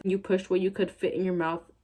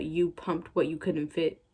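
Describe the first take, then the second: First: Said in the usual way. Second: "pumped" and "couldn't" said slowly and deliberately; slow correction of "pumped what you couldn't fit"; corrected slowly. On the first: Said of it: "the fanfic's own wording". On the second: Shown as a demonstration. Reading a bad fanfic aloud, slowly correcting its grammar. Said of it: "The grammar, honey".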